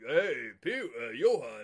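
An old, drunken-sounding man's voice is used. The speaker calls it wrong. "He sounds like he's a old drunken man"

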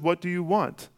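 It is asked in a calm tone.

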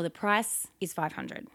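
The pitch falls at the end. The speaker sounds like a confident expert. The speaker calls it right. "the other one shows that I'm an expert"

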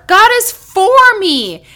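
The stress is on for.

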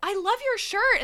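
It is said in a high voice.

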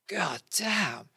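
It is said with excited awe.

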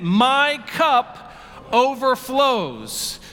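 It is said with strong, heartfelt conviction.

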